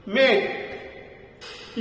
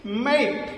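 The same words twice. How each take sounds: First: मेट drawn out very slowly in a whisper, vowel as आई; slow whispered repeat. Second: मेट said softly as "mate", with the vowel as आई; model pronunciation. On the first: Teacher to class, whispering मेट slowly for them to copy. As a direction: breathe मेट out slowly, voiceless. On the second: Teacher to class, modelling मेट softly. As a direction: say मेट with a long ए-ई glide. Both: Shown as a demonstration. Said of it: "वो आई के रूप में बोला जा रहा है".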